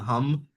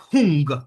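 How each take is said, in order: First: The word ends with an m sound. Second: The word ends with an ng sound. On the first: The speaker calls it wrong. "I at least find that version more powerful than hum" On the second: The speaker calls it right. "Hum is pronounced like hung"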